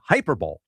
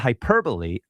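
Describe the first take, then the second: First: It is said as three syllables, like 'hyper-bowl'. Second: It is said with four syllables, ending in 'lee'.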